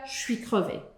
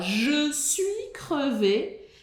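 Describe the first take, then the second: First: Je suis is run together and shortened. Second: Every syllable of je suis is said fully.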